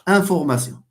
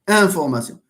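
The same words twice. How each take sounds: First: The word is said with a French pronunciation. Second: The word is said with a French pronunciation.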